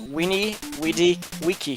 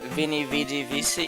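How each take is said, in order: First: Each word begins with a W sound. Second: Each word begins with a V sound.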